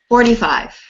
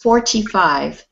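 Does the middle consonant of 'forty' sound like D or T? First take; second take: D; T. First: The consonant in forty sounds like a D. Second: The consonant in forty is a clear T. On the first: "when they speak fast, it sounds more like a D" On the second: "if you say it correctly, it's forty-five because it is a T"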